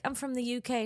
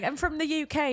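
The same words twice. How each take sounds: First: Lightly acted quote, raised pitch; retold introduction. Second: High-pitched, laughing replay of his line; mocking imitation. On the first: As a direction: quote him introducing himself, a little high. First retelling of his introduction. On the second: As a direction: mimic him in a silly high voice.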